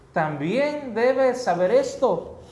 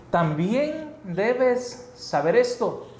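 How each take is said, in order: No difference in how they are said.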